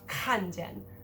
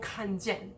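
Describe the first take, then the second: First: The second syllable is unstressed. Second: Both syllables are stressed. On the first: The speaker calls it right. "So you would only have" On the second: The speaker calls it wrong. "There is no"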